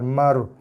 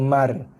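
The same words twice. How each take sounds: First: The r sound is heavy and thick. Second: The r sound is light and thin. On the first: The speaker calls it right. "mar ni tebal. Dibaca dengan tebal" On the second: The speaker calls it wrong. "kalau kita baca mar, ha, itu ra nipis"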